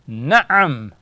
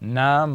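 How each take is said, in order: First: It is said with a throaty catch inside. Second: It is said without a throaty catch inside. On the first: The speaker calls it right. "this is ain" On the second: The speaker calls it wrong. "it is not nam"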